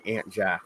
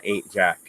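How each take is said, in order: First: AUNT said like "ant"; deliberate own pronunciation. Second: AIN'T with a long A; rejected pronunciation. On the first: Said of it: "I will continue to say". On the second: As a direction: say Ain't with an "ay" vowel, like "paint". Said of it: "instead of Ain't Jack". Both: Shown as a demonstration.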